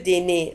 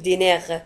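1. الكلمة تنتهي بحركة، ولا يوجد صوت R. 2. الكلمة تنتهي بصوت R مسموع. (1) "تنتهي بR ولا تنطق" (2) "لا نقول dîner"

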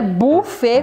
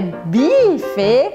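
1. A primeira vogal é um u simples. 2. A primeira vogal soa como i. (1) "também não é buffet com U igual em português" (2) "que não é buffet com I"

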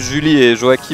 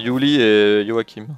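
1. Les noms commencent par un son 'zh' français. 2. Les noms commencent par un son 'y'. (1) "c'est marqué" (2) "les J se prononcent comme des Grecs"

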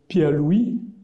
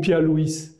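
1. Louis finit par une voyelle, sans s final. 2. Louis finit par un son s audible.

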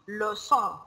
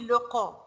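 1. De c wordt uitgesproken als een zachte s. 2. De c wordt uitgesproken als een harde k. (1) "It should be leçon" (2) "If we will not have this sign, it will be leçon, leçon. So it is wrong in the pronunciation"

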